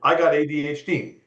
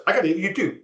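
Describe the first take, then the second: First: Said in the usual way. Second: Very fast, higher-pitched quote; rapid-fire imitation. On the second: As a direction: rattle it off like a hyper fast talker. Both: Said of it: "he said it like this".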